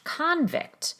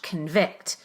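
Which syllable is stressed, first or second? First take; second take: first; second. First: The stress is on the first syllable. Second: The stress is on the second syllable. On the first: It is used as a noun. "In the noun convict, where the prefix is stressed" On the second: It is used as a verb. "the verb convict, where the prefix is not stressed, it's rushed"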